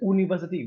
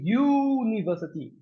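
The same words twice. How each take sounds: First: The word begins with a plain vowel sound. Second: The word begins with a Y sound. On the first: The speaker calls it wrong. "no one says university" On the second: The speaker calls it right. "It's actually the Y sound"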